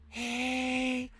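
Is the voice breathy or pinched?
breathy. The voice is breathy and airy.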